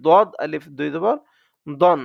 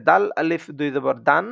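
First: দদ and দন with rounded "o" vowels; heavy Dad. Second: দাল and দান with open "aa" vowels; light Dal. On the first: Teacher contrasts two letters, দদ and দন with rounded "o". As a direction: spell it out, ending on a rounded "don" in দন. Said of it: "আর এটা হবে". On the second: Teacher contrasts two letters, দাল and দান with open "aa". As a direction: spell it out, ending on an open "daan" in দান. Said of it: "দান হলে হবে". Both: Shown as a demonstration.

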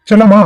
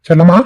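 First: Higher-pitched call on Chellamma; insistent calling out. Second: Calling out. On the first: Calls wife a second time, raised. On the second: Calls wife from inside house. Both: Acted.

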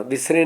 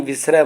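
First: ਵਿਸਰੇ said with a closed e at the end; ਵਿਸਰੇ ending in plain e, the reading to avoid; ਵਿਸਰੇ, the wrong reading. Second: ਵਿਸਰੈ ending in open ai sound; ਵਿਸਰੈ, the correct reading. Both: Shown as a demonstration. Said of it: "ਇੱਥੇ ਵਿਸਰੇ ਨਹੀਂ ਪੜ੍ਹਨਾ".

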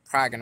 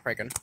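First: "Kraken" said KRAG-en, short a; short-a pronunciation. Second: "Kraken" said KRAY-ken, long a; long-a pronunciation. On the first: Card reviewer settles how the name is said, short-a pronunciation. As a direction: say "Kraken" with a as in "crag". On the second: Card reviewer shows the rejected name, long-a pronunciation. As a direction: say "Kraken" with a as in "cray". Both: Shown as a demonstration. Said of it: "Kraken, not Kraken".

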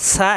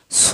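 First: সা with light s and open a; thin sin. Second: স thick with a rounded o; heavy sad. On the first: Teacher telling apart two confusable letters, thin sound. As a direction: open সা wide, keeping it thin. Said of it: "এখানে হবে সা". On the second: Teacher telling apart two confusable letters, heavy sound. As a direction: round the vowel of স, full-mouthed. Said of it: "এখানে হবে স". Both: Shown as a demonstration.

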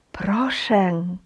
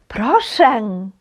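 First: "Прошен" whispered, unvoiced and soft; whispered echo. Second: Said in the usual way. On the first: Shown as a demonstration. Teacher whispering the word as an echo for students. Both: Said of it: "читаймо слова".

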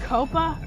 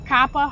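First: "copa" with an open long O; "copa" pronounced KOH-pah. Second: "coppa" as KAH-pa, a bit louder; "coppa" rhyming with "poppa"; coppa with short o. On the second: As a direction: say "coppa" like cop, short vowel. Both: Shown as a demonstration. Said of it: "however you want to say it".

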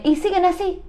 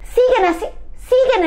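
First: Said in the usual way. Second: High, sudden cry of disbelief; incredulous repeat. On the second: Acted. Host reacting to the couple still fighting, high-pitched disbelief. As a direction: throw the words back, high and appalled.

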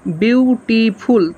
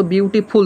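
First: beautiful very slowly, BIU - TI - FUL; drawn-out, syllable-by-syllable beautiful; split into three syllables. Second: Said in the usual way. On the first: Shown as a demonstration. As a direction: stretch beautiful into three separate beats. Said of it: "তাহলে তিনবার উচ্চারণ করছে না?". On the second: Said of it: "যদি ও বলতো beautiful".

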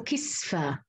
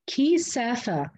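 First: كسفة as kis-fa, sin closing the syllable; vowelless sin. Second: كسافة drawn out slowly, an a after the sin; open vowel after the sin. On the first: Teacher showing the other readers' version, vowelless sin. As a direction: close كسفة on the s, no vowel after it. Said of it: "قرأوها بإسكان السين". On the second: Teacher isolating Hafs's reading, sin with open a. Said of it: "قرأ بفتح السين". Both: Shown as a demonstration.

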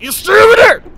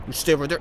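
First: Loud, high yelled warning; panicked shout. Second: Said in the usual way. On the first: Real, not acted. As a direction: yell to keep the enemy back. Warning repeated as enemy nears.

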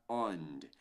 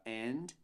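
First: "ond" with a full O vowel; wrong OND ending. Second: "end" with an E vowel; correct END ending. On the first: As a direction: model the mistaken "ond", slowly. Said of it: "do que pra ond". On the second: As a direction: model the ending as "end", slowly. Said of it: "Mais pra end". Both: Shown as a demonstration.

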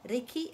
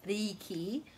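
First: Riki short, i vowels clipped; short Riki, not long ree-kee; correct short riki. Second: Riki with long ee vowel; the mistaken drawn-out riki; ree-kee, too long; wrong long riki. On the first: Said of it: "Riki, it's not riki". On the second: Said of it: "it's not riki". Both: Shown as a demonstration.

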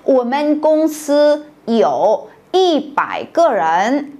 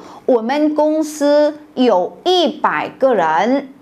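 First: "我们公司有一百个人" repeated even more slowly, word by word; slower Mandarin repeat. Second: "我们公司有一百个人" read slowly in Mandarin, rising on "一"; slow Mandarin example. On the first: Teacher repeating the example at the class's request, slower still. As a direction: drag out "我们公司有一百个人" again for the class. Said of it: "我再说一遍". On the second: Teacher reading a Chinese example sentence, slow and careful. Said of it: "Ví dụ". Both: Shown as a demonstration.

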